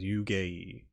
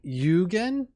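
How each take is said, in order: First: The word ends in a vowel, no n sound. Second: The word ends with an added n sound. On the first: The speaker calls it right. "so it's Yugei" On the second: The speaker calls it wrong. "I don't know why they keep saying Yugen"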